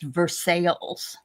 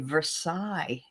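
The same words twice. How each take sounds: First: The ending sounds like the word 'sales'. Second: The ending does not sound like 'sales'. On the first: "but it's pronounced Versailles" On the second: "There is a Versailles in Kentucky"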